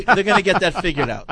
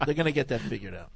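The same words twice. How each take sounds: First: Said in the usual way. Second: Softer, faster, lower muttered repeat; quieter repeat. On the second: Real, not acted. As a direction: mutter it again under your breath.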